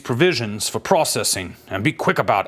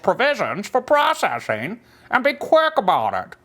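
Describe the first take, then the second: First: It is said in an ordinary, normal-sounding voice. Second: It is said in a strange, alien-like put-on voice. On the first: The speaker calls it wrong. "this doesn't sound like an alien" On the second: The speaker calls it right. "Let me try again"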